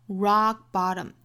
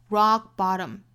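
No difference in how they are said.

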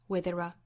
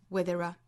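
No difference in how they are said.

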